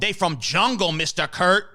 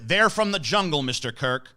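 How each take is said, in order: First: It is spoken in an imitated foreign accent. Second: It is spoken in the plain, unaccented voice. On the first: It sounds funny. The speaker calls it right. "not as funny if I don't say it in her accent" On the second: It sounds uncomfortable, not funny. The speaker calls it wrong. "if I just say like ... that's not funny"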